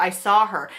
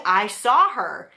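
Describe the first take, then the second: First: Said in the usual way. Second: I saw her, each word slow and weighted; slow insistence. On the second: Real, not acted. Swearing to the viewers she saw the ghost, slow and insistent. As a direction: press every word of I saw her, slowly. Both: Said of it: "I swear to God".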